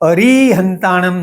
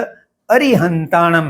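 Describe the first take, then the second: First: The second syllable has a long drawn-out vowel. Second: The second syllable has a short quick vowel. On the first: The speaker calls it wrong. "कुछ लोग री की दीर्घ उच्चारण की आदत में रहते हैं" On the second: The speaker calls it right. "अ और री एक साथ जल्दी में बोले जाते हैं"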